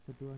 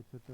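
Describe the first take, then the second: First: छठवा ending in -va; wrong form. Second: छठा in two short syllables; correct form. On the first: Teacher showing learners the mistake, छठवा with v. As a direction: say छठवा as chhath-va. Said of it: "नहीं होता". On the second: Teacher giving the correction, छठा without v. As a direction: say छठा as chha-tha. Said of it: "होता है". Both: Shown as a demonstration.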